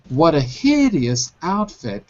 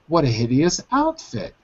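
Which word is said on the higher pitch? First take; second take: hideous; outfit. First: Hideous is high in pitch and outfit is low. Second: Outfit is high in pitch and hideous is low. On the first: "Instead of saying" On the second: "I can make outfit high and hideous low"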